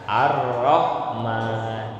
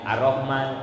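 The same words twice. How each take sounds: First: The doubled consonant is held long. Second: The doubled consonant is said short. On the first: The speaker calls it right. "tasdid itu dibacanya ditahan ya" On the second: The speaker calls it wrong.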